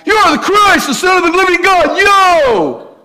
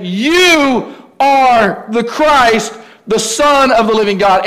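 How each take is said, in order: First: Much higher, loud tough-guy shout; Rocky-style Peter. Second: Drawn-out, slightly higher proclamation; bold confession. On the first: Peter declares Jesus the Christ in a tough Rocky voice. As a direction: belt it like a street fighter, ending with yo. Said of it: "He's this powerful guy". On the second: Peter stands up and proclaims Jesus the Christ, slowly and boldly. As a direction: stretch it out boldly. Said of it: "only one had the courage to stand up and say". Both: Retold or imitated.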